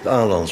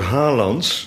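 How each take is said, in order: First: The name begins directly with a vowel. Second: The name begins with an h sound.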